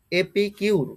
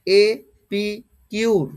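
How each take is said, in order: First: Said in the usual way. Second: এপিকিউর slowly broken as e, pi, kiur; each piece of এপিকিউর said separately; syllable-by-syllable pronunciation. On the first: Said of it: "এ ধরনের pronunciation হবে". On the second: Shown as a demonstration. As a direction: sound out এপিকিউর with a long gap after each part. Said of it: "উচ্চারণটা কি হবে দেখো".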